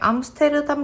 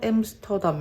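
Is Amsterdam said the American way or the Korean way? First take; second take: Korean; American. First: It is said in Korean loanword style, syllable by syllable. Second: It is said in American English style, shortened. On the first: This is the familiar local form of the name. "익숙한 것 중에 암스테르담 가디건이 있는데" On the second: This is how the name is said in the American show. "거기서는 신기하게 엠스터담이라고 하는 거예요"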